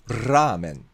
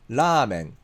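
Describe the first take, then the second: First: The first consonant is a rolled trill. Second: The first consonant is a single quick tap.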